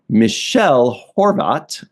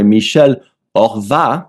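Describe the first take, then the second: First: The name is said with English pronunciation. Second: The name is said with French pronunciation.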